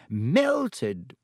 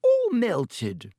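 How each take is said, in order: First: Wonderingly. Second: Higher, louder stunned repeat; amazed. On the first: Pomfrey staring at the camera, wondering. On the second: Pomfrey stunned by the ruined camera. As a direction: let the shock rise. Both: A narrator's reading. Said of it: "said Madame Pomfrey wonderingly".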